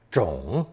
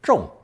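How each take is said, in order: First: 种 as zhǒng, dipping low then rising; third tone. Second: 种 as zhòng, starting high and falling; fourth tone. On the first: Teacher giving the word for seeds, 种 in third tone. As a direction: draw 种 out with a falling-rising tone. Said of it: "the character for both seeds". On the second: Teacher giving the word for plant, 种 in fourth tone. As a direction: drop 种 sharply from a high start. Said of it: "to plant or cultivate". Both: Shown as a demonstration.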